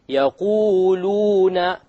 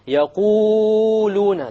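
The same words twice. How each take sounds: First: The long vowels are held for two counts. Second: The long vowels are stretched well beyond two counts. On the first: The speaker calls it right. "You have to make it long" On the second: The speaker calls it wrong. "it's a mistake to make it longer than two"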